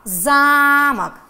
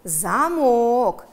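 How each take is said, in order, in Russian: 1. Ударение на первом слоге. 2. Ударение на втором слоге. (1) "вы выделяли первый слог, выделяли гласный «а»" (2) "А во втором слове вы выделяли второй слог"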